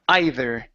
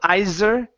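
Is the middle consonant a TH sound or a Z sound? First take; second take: TH; Z. First: The middle consonant is a TH sound. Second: The middle consonant is a Z sound. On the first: The speaker calls it right. "the with your tongue between your teeth" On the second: The speaker calls it wrong. "instead of either. Z, z"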